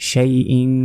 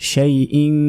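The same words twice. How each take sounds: The two takes are said the same way.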